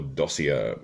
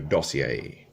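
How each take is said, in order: First: It is said the plain English way. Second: It is said with a fancy French-sounding accent. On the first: "if you prefer to pronounce it like that" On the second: "it sounds a bit more fancy and like I'm a bit more, um, I don't know, elite or something by using a funny accent"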